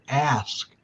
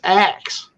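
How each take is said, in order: First: The s sound comes before the k sound. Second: The k sound comes before the s sound. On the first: The speaker calls it wrong. "you don't say the word ask" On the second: The speaker calls it right. "It's axe"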